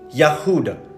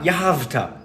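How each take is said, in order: First: The middle consonant is a W sound. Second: The middle consonant is a V sound. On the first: The speaker calls it right. "the original Hebrew pronunciation of Judah" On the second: The speaker calls it wrong. "not Yahavta"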